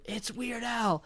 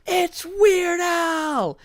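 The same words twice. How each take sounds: First: Hushed, high imitation of a yell; small, held-back mock shout. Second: High, drawn-out crowd shout; shrieked celebrity sighting; excited yell. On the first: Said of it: "who yelled". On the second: Retold or imitated. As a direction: yell it across a room, stretching the words. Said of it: "somebody yells".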